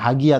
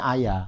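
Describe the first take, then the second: First: It begins with an H sound. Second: It begins with a vowel, no H.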